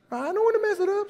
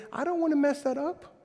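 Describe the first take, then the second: First: High and quick, fretful; hammed-up nervous higher voice; much higher, faster mock worry. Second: Said in the usual way. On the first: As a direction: squeak it out, worried about singing. Worried about singing badly.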